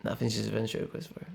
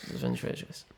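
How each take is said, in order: First: Said in the usual way. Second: Whispered, voiceless and hushed. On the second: Real, not acted. Restated, then whispered.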